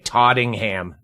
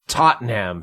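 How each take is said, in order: First: The middle syllable sounds like 'ting'. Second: The middle syllable sounds like 'ten'. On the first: The speaker calls it wrong. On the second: The speaker calls it right.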